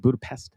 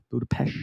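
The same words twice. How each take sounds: First: "Budapest" with a plain English s at the end. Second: "Budapest" ending in sh, Budapesht, with a questioning rise. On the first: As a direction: say "Budapest" as Budapest, ending in a crisp s. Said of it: "I don't know if it's the way you say it". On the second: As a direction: say "Budapest" the local way, closing on sh. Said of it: "the way how he says it". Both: Shown as a demonstration.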